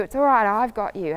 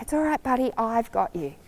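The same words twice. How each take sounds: First: Said in the usual way. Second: Soft, gentle reassurance; calm a frightened friend softly; nice voice. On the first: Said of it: "Or I say to you". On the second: Shown as a demonstration. Rider calming a nervous horse at a party, soft and gentle. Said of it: "talking to you in a nice voice".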